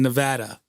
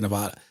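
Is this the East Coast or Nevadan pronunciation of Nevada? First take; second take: Nevadan; East Coast. First: Pronounced the way people in Nevada say it. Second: Pronounced the way East Coast people say it. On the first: "they say Nevada in Nevada" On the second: "us on the East Coast tend to say Nevada"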